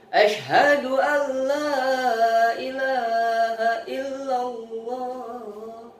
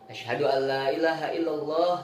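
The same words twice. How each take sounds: First: It is said loudly and strongly. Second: It is said quietly and softly. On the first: It is proclaimed openly to the people around. "baru kencang" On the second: It is said for oneself, as Islam began in secret. "Jadi pertama pelan"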